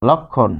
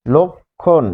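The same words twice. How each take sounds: First: "লক্ষণ" as lɔk-khon, open ɔ first; open first vowel. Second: "লক্ষণ" as lok-khon, closed o first, split in two; rounded lo. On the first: Teacher poses the example to students, "লক্ষণ" with open lɔ. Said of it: "কিন্তু যখন আপনি বলছেন". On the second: Teacher shows the vowel rule, "লক্ষণ" split as lok... khon. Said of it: "ল হচ্ছে লো". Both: Shown as a demonstration.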